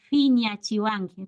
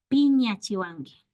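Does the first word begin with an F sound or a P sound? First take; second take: F sound; P sound. First: The first word begins with an F sound. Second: The first word begins with a P sound. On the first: This is how native speakers habitually say it. "pronunciamos como F" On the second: This matches how the word is written. "realmente no hay F, sería"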